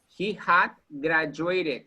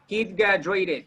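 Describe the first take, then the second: First: The word had is said in full. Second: The word had is contracted onto he. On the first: "here we're using had" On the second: "Contraction. He'd"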